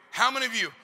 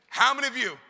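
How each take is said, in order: Both takes have the same delivery.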